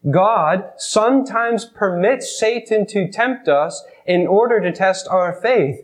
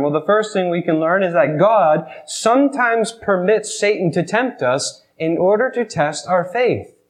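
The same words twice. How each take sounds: First: Slow, each word weighed; slow emphatic repeat. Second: Said in the usual way. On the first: Shown as a demonstration. Preacher repeats the lesson for the congregation, slow and emphatic. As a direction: repeat it slowly so it sinks in.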